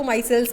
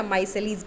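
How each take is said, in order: First: माइसेल्स as "MY-selz", two syllables; chosen pronunciation. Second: माइसेलिस as "MY-se-leez", three syllables; alternative pronunciation. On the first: Teacher choosing what the class will say, माइसेल्स pronounced "MY-selz". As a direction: end माइसेल्स straight on "-selz". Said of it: "हम लोग इसको माइसेल्स बोलेंगे". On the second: Teacher offering the class a second option, माइसेलिस pronounced "MY-se-leez". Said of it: "या माइसेलिस बोलेंगे". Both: Shown as a demonstration.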